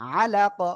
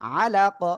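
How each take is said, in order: The two takes are said the same way.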